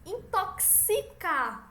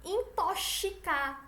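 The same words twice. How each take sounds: First: "Intoxicar" slowly, as "intoksicar". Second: "Intoxicar" slowly, X said like "ch"; "Intoxicar" with a hushing SH for X. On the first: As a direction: model "Intoxicar" with a crisp K-S. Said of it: "É como se fosse um K S". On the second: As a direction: mispronounce "Intoxicar" as "intochicar". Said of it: "tá errado". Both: Shown as a demonstration.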